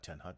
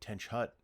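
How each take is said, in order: First: The first word ends with a plain 'n' sound. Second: The first word ends with a 'ch' sound. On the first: The speaker calls it wrong. "not ten hut" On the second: The speaker calls it right. "ten hut or ten tench hut"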